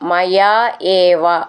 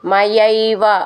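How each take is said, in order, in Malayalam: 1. ഈ വാക്കുകൾ വേറെവേറെയായിട്ടാണ് പറയുന്നത്. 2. ഈ വാക്കുകൾ ഒന്നായി ചേർത്താണ് പറയുന്നത്.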